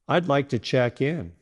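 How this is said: The voice falls gently at the end. The speaker is confident and the thought is complete. The speaker calls it right. "Say it with a gentle downward tone at the end"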